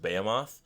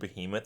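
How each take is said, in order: First: The ending sounds like the end of Sephiroth. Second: The word is said the usual way. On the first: "like Sephiroth" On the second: "the word behemoth"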